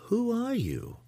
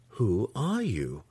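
First: High-pitched curious question with a steep fall. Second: Slow, deliberate questioning; insistent. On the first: Matron questions a suspected impostor, curious and high. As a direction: ask it high and curious, unconcerned. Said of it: "her voice sounding more curious than concerned". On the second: Matron questions the impostor with whip drawn, slow and insistent. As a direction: draw the question out slowly and pointedly. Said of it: "Sinife asked again". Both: A narrator's reading.

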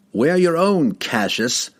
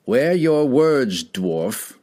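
First: Firm warning. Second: Slow, higher warning that trails off on dwarf; tentative retort. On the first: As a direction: turn the words back on him firmly. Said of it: "warned Argawal of Tourmaline". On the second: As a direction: bluster it, unsure underneath. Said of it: "retorted Cassius". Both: A narrator's reading.

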